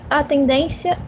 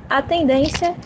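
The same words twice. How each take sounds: The two takes are said the same way.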